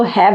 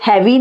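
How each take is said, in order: First: हैव ending on the v sound; silent final e. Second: हैवी with an ee on the end; wrong spelling pronunciation. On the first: Teacher giving the correct form, हैव with silent e. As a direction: say हैव as one syllable, no ee. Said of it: "इसको हैव बोलेंगे". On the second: Teacher warning against sounding the e, हैवी ending in ee. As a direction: voice the final e in हैवी as ee. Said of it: "ये हैवी नहीं बोलते इसको". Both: Shown as a demonstration.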